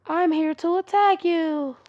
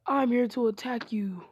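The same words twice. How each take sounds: First: Loud, slow, higher-pitched put-on voice; disguised intruder voice. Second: Said in the usual way. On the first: Hinata disguising herself to attack Naruto, loud put-on voice. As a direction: announce it slowly and loudly in a disguised voice. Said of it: "her voice just deeper, just, like, louder". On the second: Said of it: "tried to make her voice deeper".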